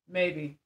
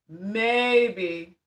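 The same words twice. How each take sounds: First: Said in the usual way. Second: "Maybe" stretched slowly over both syllables; a long, doubtful "Maybe"; drawn-out MAYBE. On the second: Real, not acted. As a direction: linger pointedly on "Maybe". Repeats the word drawn out.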